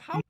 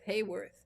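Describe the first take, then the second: First: The first syllable sounds like 'how'. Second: The first syllable sounds like 'hay'. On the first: The speaker calls it right. "it's Howarth" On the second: The speaker calls it wrong. "I'm saying Hayworth, and it's not Hayworth"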